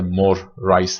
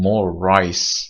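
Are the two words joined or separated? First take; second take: separated; joined. First: The words are said separately, with a break. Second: The words are joined with one long r.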